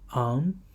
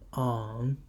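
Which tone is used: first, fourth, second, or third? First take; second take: second; third. First: The syllable is said with the second tone. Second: The syllable is said with the third tone.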